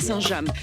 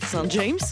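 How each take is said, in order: First: The name is pronounced the French way. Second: The name is pronounced the English way. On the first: This is the local town in France. "si je le prononce correctement" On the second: This is a place across the Channel. "si vous alliez de l'autre côté de la Manche"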